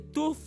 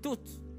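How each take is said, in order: First: The word is said with careful, full pronunciation. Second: The word is said in a relaxed, reduced way. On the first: This is how someone still learning says it. "au lieu de tooth" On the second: This is how a more advanced speaker says it. "tu commences à dire toutes"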